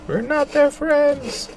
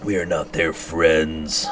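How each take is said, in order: First: Slow, much higher squeaky declaration; high character voice. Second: Slow, deep, stretched-out declaration; cold character voice. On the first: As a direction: stretch the words out very high and slow. Same line voiced again differently. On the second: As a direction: lay every word down slowly and coldly. Game line voiced in character. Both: Acted.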